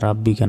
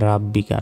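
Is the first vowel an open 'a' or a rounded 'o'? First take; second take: open a; open a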